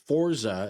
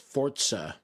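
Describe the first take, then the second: First: The middle consonant is a plain z sound. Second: The middle consonant is a ts sound. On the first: The speaker calls it wrong. "So it's not Forza" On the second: The speaker calls it right. "it's Forza. Like you're saying T"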